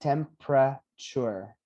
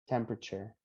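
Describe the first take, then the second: First: Temperature slowly broken as "tem-pra-chure"; three syllables. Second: Said in the usual way. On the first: Shown as a demonstration. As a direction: split temperature into three slow beats. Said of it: "we're gonna have three syllables". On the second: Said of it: "three syllables".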